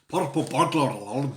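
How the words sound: It is said in a Scottish accent.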